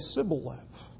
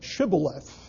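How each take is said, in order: First: The word begins with an S sound. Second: The word begins with an SH sound. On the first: The speaker belongs to the group that fails the test. The speaker calls it wrong. "they couldn't really pronounce an SH sound, but only an S sound" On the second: It is the password said the accepted way. The speaker calls it right. "as we would pronounce it today"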